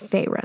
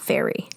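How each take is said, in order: First: The name does not sound like 'fairy'. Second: The name sounds like the word 'fairy'. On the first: The speaker calls it right. "I do know it's Feyre now" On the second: The speaker calls it wrong. "not fairy"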